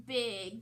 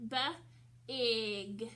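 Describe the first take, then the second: First: Said in the usual way. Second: "B-ig" split into buh, then ig; sounded out. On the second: Shown as a demonstration. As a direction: break "B-ig" after the b, with a gap. Teacher breaks word into sounds.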